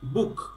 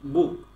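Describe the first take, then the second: First: The final k ends with a puff of air. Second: The final k is plain, without a puff of air. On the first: The speaker calls it right. "লাস্টে খ হবে" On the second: The speaker calls it wrong. "Not বুক"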